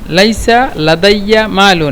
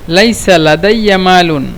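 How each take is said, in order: Both takes have the same delivery.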